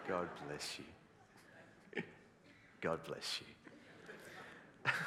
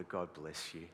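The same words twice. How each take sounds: First: Mock-solemn slow blessing; slow, drawn-out blessing. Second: Said in the usual way. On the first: Shown as a demonstration. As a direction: stretch God bless you very slowly and low.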